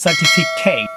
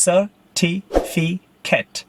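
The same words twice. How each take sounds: First: "certificate" as serti-fi-KATE; mispronunciation. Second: "Certificate" slowly as ser-ti-fi-ket; syllable by syllable. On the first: Teacher showing what it is not, mispronounced. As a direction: hit a full "kate" at the end of "certificate". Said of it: "It's not certificate". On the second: Teacher correcting students' last syllable, syllable by syllable. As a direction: end "Certificate" on a short "ket". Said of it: "Last syllable is ket". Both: Shown as a demonstration.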